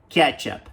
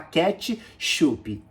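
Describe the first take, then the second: First: The word is said smoothly without any break. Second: The word is split with a break in the middle. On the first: The speaker calls it right. "é tudo junto" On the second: The speaker calls it wrong. "para não separar a palavra no meio"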